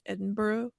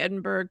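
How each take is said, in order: First: It is said the way locals say it. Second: It is said in the usual American way. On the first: "but they say Edinburgh" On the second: "We say Edinburgh"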